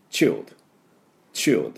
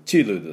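First: チルド as one syllable "chil'd"; native-style チルド, no "ru"; English child sound. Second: チルド as chi-ru-do with full vowels; added U. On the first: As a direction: run L into D on チルド without a U. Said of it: "チルドじゃなくて". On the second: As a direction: put a clear "ru" in チルド. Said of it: "Uが入ってしまいますけど". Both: Shown as a demonstration.

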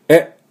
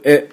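First: Short え from the back of the throat; throaty surprised "eh". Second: Said in the usual way. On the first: Shown as a demonstration. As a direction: pop out え as if startled. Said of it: "日本人のえではなくて". (日本人のえと違う、喉の奥の驚いた「え」) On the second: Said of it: "この普通".

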